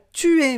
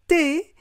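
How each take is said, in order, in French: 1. Ça se dit en entier, en deux syllabes. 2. Ça se contracte en une seule syllabe. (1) "Pas tu es" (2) "mais t'es"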